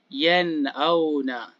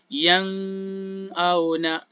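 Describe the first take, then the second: First: The n is pronounced as a clear n. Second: The n is pronounced as an ng sound. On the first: The speaker calls it right. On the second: The speaker calls it wrong.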